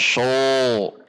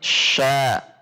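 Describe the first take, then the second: First: The syllable sounds heavy, with a dark o-like vowel. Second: The syllable sounds light, with an open a. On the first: The speaker calls it wrong. "tidak sho" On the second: The speaker calls it right. "namun sya"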